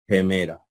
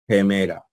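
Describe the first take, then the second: The two takes are said the same way.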